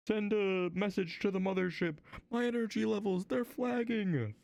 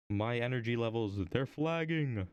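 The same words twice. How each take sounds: First: High, put-on spaceship crew voice; hammed-up plea to the mothership, stretched at the end; mock distress call. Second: Said in the usual way.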